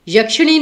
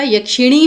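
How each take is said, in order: First: यक्षिणी said as "yakshanee"; dropped i. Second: यक्षिणी as "yakshinee"; sounded middle i. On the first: Teacher showing the misspelling, यक्षिणी as "yaksha-nee". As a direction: say यक्षिणी with "sha" in the middle. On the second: Teacher correcting students, यक्षिणी with "shi" in the middle. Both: Shown as a demonstration. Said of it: "यक्षिणी होता है".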